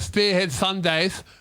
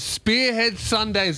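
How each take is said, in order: First: The S sounds are lisped, like a cartoon duck. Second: The S sounds are crisp and clear. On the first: The speaker calls it wrong. "I don't have a lisp, all right? I'm not going" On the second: The speaker calls it right. "Listen to my S's. They're perfect"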